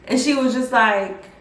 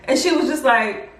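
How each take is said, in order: Both takes have the same delivery.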